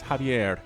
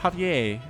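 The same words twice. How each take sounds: First: It ends with a Spanish-style R sound. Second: It ends in a French-style vowel, no R. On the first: The speaker calls it right. "It's Javier. Something along those lines" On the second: The speaker calls it wrong. "Not an A either. It's not like it's French. It's not Javier"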